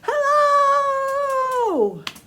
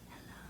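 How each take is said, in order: First: It is said very loudly. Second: It is said very quietly.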